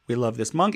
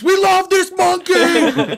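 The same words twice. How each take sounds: First: It is said flatly, like a calm radio host. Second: It is screamed loudly and excitedly.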